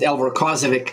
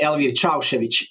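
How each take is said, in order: First: The name is said the American way. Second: The name is said the Bosnian way.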